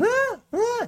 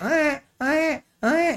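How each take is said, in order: First: A much higher mock infant wail; higher baby cry imitation. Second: A high-pitched mock infant wail; high baby cry imitation. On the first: Pediatrician showing the higher colic cry to parents. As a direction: squeal it up high like a colicky baby. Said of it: "Itu lebih tinggi dan bervariasi dalam nada". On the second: Pediatrician imitating a colicky baby's high-pitched cry. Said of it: "high pitch, jadi nadanya". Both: Shown as a demonstration.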